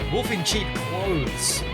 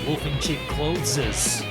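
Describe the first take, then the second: First: The last word is said with one syllable. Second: The last word is said with two syllables. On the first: "but we never said it that way" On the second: "We always said wolf in cheap clotheses"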